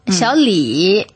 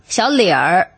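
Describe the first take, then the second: First: The name ends without an r-coloured sound. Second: The name ends with an r-coloured 'er' sound.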